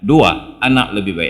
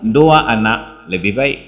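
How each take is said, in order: First: There is a pause after the first word. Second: It flows with no pause after the first word. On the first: Point number two is that children are better. "Dua, kemanusiaan yang adil dan beradab" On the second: Having two children is better. "Dibaca yang kedua"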